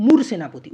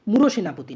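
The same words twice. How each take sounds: First: মূর সেনাপতি with closed, punched moor, no o; correct pronunciation. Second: মূঢ় সেনাপতি with an o, mu-ro-senapoti; wrong pronunciation. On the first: Teacher teaching the proper form, correct closed syllable. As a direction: hit মূর as one loud closed syllable. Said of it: "এর উচ্চারণটা হচ্ছে মূলত". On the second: Teacher showing students the mistake first, wrong open syllable. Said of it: "ভুল উচ্চারণ". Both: Shown as a demonstration.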